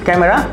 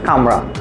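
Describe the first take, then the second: First: The word is said with all three syllables. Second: The middle vowel is dropped, leaving two syllables.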